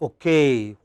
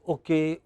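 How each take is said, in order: First: The last syllable is prominently stressed. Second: The last syllable is not prominently stressed. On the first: It is the form for formal occasions. The speaker calls it right. "in a formal occasion ... it should be okay" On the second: It is a casual form used among friends. The speaker calls it wrong. "In India, we often say okay"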